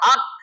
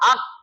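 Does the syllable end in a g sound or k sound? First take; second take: k sound; k sound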